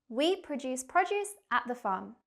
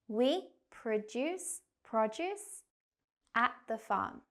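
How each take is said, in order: First: The sentence is spoken quickly. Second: The sentence is spoken slowly. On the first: "Now faster, like a native speaker" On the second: "First, we'll go slow"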